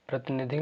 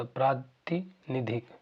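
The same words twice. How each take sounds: First: "प्रतिनिधिक" with a short first a; wrong pronunciation. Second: "प्रातिनिधिक" with a long first aa; correct pronunciation. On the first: Teacher shows what it is not, "प्रतिनिधिक" with short pra. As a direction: say "प्रतिनिधिक" quickly as pra-ti-ni-dhik. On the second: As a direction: draw out "प्रातिनिधिक" as praa-ti, ni-dhik. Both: Shown as a demonstration. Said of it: "नहीं होता".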